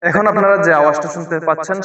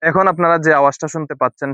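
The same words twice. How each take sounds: First: The voice has an added echo effect. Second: The voice is clean with background noise removed. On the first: "ইকো mode" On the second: "noise remove মোডের মাধ্যমে"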